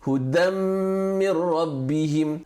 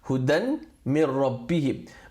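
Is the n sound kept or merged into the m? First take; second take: merged; kept. First: The n sound disappears into the following m. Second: The n sound is clearly kept before min. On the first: "when you read it with idgham, the n of the dan just completely disappears and merges into the meme" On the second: "that's how you spell it"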